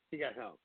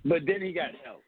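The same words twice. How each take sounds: First: He got help, dropped much softer and lower; quiet repeat. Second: Said in the usual way. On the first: Real, not acted. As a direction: repeat it to yourself, under the breath.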